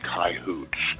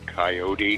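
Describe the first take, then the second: First: It has a rural cowboy pronunciation. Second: It has an Eastern US pronunciation. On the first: The speaker is a real cowboy. "the real cowboys, they say coyotes" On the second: The speaker is from the East. "Guys from back east say coyote"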